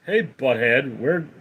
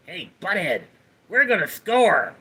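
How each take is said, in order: First: Said in the usual way. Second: Cartoon slacker impression; Beavis. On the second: Streamer performing a chat request, Beavis impression. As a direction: put on a dopey cartoon teen voice. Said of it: "Love the Beavis impression".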